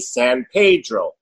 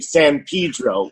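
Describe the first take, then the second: First: It is said with an Italian accent. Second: It is said with the local pronunciation. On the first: The speaker calls it wrong. "an Italian accent, they would say San Pedro" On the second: The speaker calls it right. "I had to change it to say San Pedro"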